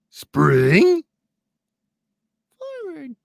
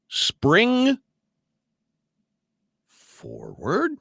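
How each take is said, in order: First: It is said in a put-on puppet character voice. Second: It is said in the speaker's normal voice. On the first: "put on my Grover voice" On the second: "Say it with me, kids"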